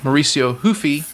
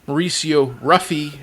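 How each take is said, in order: First: The surname begins with an H sound. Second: The surname begins with an English R sound.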